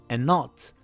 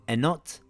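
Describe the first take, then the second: The two takes are said the same way.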